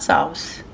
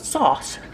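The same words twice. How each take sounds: First: The vowel glides, sounding like it has a w. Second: The vowel is plain, with no w-like glide. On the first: The speaker calls it wrong. "There ain't no W in sauce either" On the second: The speaker calls it right. "We're going to heat some of the sauce"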